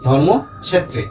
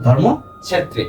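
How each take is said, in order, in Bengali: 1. এটি সংস্কৃত উচ্চারণে বলা হচ্ছে। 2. এটি সংস্কৃত উচ্চারণে বলা হচ্ছে।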